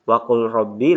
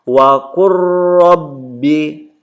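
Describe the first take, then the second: First: The l is pronounced before the r. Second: The l merges into a doubled r. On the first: The speaker calls it wrong. "tidak dibaca lagi waqul" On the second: The speaker calls it right. "lamnya langsung ke ro"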